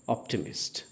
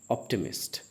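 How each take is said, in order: Both takes have the same delivery.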